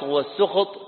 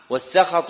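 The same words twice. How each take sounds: First: والسخط said as "was-sukht", u after the s; damma on seen. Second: والسخط said as "was-sakhat", a after the s; fatha on seen. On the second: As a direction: say والسخط with open a vowels, sakhat. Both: Shown as a demonstration. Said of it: "بفتح السين وضمها".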